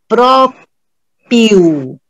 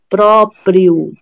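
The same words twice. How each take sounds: First: The R in the final syllable is dropped. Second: The R in the final syllable is pronounced. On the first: The speaker calls it wrong. "Não tem o R" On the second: The speaker calls it right. "Presta atenção como eu estou falando"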